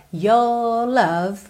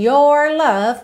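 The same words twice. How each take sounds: First: "your love" with "your" as a long "yo"; dropped R. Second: "your love" with a curled R in "your"; sounded R. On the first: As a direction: leave the R out of "your", vowel held. ("your love" sem o R em "your") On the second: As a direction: curl the tongue to finish "your" before "love". ("your love" com R enrolado em "your") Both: Shown as a demonstration. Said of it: "A gente não tem your love".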